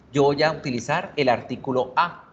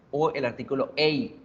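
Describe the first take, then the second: First: "a" said as a plain ah sound; article a. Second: "a" said as the letter name ei; article a as ei. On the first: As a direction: say "a" with an open ah vowel. ("a" pronunciada como a española) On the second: ("a" pronunciada como ei) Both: Shown as a demonstration.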